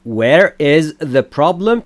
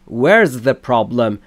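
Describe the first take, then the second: First: Where and is are said as two separate words. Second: Where and is merge into one syllable, where's.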